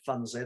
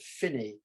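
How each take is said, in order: First: The name is said with a u vowel and s. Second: The name is said with an i vowel, no s. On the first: The speaker calls it wrong. "they don't pronounce it Funsey" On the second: The speaker calls it right. "they pronounce it Finny"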